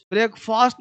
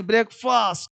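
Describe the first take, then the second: First: ब्रेकफास्ट with long open "faast"; mispronounced ending. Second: ब्रेकफास्ट with short, reduced "fust"; correct pronunciation. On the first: Teacher rejecting this form for pupils, long "faast". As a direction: widen the second vowel of ब्रेकफास्ट to "aa". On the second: Teacher giving pupils the right form, short "fust". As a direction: shorten the last vowel of ब्रेकफास्ट to "uh". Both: Shown as a demonstration. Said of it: "ब्रेकफास्ट नहीं".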